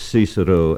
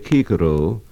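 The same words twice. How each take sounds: First: The word begins with an s sound. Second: The word begins with a hard k sound. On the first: This is the English pronunciation. The speaker calls it wrong. "not Cicero as in English" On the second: This is the classical Latin pronunciation. The speaker calls it right. "a classical scholar will say Cicero"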